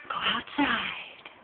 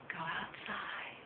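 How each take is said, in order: First: Slow, gentle coaxing; coaxing a bird. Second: Slow, much softer coaxing. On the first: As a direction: ease the bird out slowly. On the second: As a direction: hush it out gently. Coaxing a bird outside. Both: Real, not acted.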